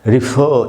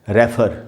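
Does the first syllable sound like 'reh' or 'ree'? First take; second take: ree; reh. First: The first syllable sounds like 'ree'. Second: The first syllable sounds like 'reh'. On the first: The speaker calls it right. "इसका सही उच्चारण है री ... British English में पढ़ेंगे रिफर" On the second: The speaker calls it wrong. "इसको हम लोग कैसे बोलते हैं इंडिया में? रेफर नहीं बोलते"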